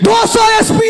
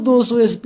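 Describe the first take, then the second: First: It is shouted far too loudly. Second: It is spoken weakly and too quietly. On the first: The caller overdoes it and the listener must hold the phone away. "और इतना भी ना चिल्लाए" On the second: The caller sounds low on energy and hard to hear. "अरे जोर से बोलना"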